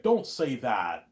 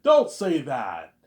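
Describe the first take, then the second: First: Don't say that, stretched slowly and louder; drawn-out don't. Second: Don't say that, very slow and much louder; very loud drawn-out don't. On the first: Retold or imitated. Vijay scolds Morpheus, slow heavy Don't say that. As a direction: drag out Don't say that heavily. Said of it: "Vijay's like". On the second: Shown as a demonstration. Pitching the scene, booming slow Don't say that. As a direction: boom Don't say that out slowly. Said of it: "It's actually funny, I was saying".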